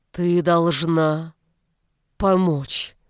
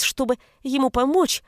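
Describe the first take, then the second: First: Slow, strained words; labored speech. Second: Said in the usual way. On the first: A narrator's reading. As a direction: force each word out slowly. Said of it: "выговорил он".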